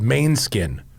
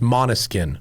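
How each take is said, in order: First: The name begins with a 'main' sound. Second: The name begins with a 'mono' sound. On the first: The speaker calls it wrong. "He said it's called Mainskin, which it's not" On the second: The speaker calls it right. "It's pronounced Monoskin"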